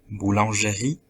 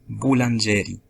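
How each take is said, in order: First: The stress is on the last syllable. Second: The stress is on the second-to-last syllable. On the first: The speaker calls it right. "avec l'accent dans la dernière syllabe" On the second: The speaker calls it wrong. "avec l'accent dans l'avant-dernière syllabe"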